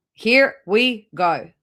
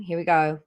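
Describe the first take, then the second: First: "Here we go" stretched slow and louder; drawn-out announcement. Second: Said in the usual way. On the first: Shown as a demonstration. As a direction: drag out "Here we go" like a showman.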